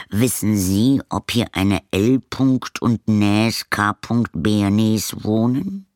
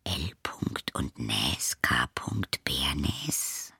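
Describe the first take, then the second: First: Slow, careful postman voice spelling Näs and Bernes; puzzled postman. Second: A soft unvoiced whisper of Näs and Bernes; girl whispers the address she recognises. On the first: Acted. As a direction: ask slowly, sounding out the odd name. Postman asks caretaker. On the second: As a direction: breathe the name to herself in surprise. Lilli repeats name under breath.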